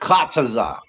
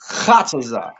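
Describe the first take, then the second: First: It begins with a plain, crisp k sound. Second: It begins with a rasping sound from the throat. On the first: The speaker calls it wrong. "not kataza" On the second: The speaker calls it right. "You gotta bring it out from right here"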